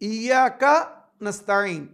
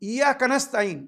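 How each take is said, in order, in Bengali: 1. শব্দ দুটি স্পষ্টভাবে আলাদা রাখা হয়। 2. শব্দ দুটি দ্রুত একসঙ্গে পড়া হয়।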